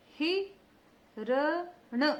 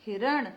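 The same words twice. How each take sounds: First: हिरण spelled out very slowly; slow syllabified हिरण. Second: Said in the usual way. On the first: Shown as a demonstration. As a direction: sound out हिरण for the kids. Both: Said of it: "तो छोटा उच्चारण".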